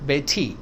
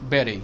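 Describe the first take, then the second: First: The middle consonant is a hard T. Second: The middle consonant sounds like a soft D. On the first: The speaker calls it wrong. "नॉट" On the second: The speaker calls it right. "Soft डी"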